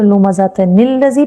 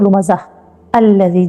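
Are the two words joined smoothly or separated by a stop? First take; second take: joined; separated. First: The words run together, linked by an 'n' sound. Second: The words are said separately, with no linking sound. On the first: "अगर हम इसको मिला के पढ़ेंगे" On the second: "अगर हम नहीं मिला के पढ़ेंगे"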